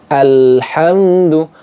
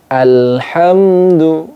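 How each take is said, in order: No difference in how they are said.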